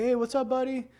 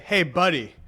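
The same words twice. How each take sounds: First: High, light and friendly Hey, what's up, buddy?; a cheerful friendly greeting. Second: Hey, buddy. said flat and pointed, buddy pressed down; a patronizing warning tone; condescending buddy. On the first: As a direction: greet him brightly, high up. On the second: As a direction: talk down to him. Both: Shown as a demonstration. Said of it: "It's all about the tone of voice".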